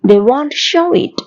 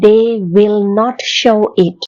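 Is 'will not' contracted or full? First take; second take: contracted; full. First: Will not is contracted to won't. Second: The words will not are said in full.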